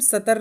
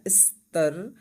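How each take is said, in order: First: A vowel is inserted between s and t. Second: The s and t are joined without vowel. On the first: The speaker calls it wrong. "इसको हम सतर नहीं पढ़ेंगे" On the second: The speaker calls it right. "वो इसकी ध्वनि पर आता है"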